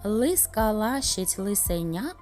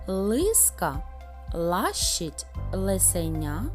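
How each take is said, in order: First: It is said at a very fast pace. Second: It is said at a slow, careful pace.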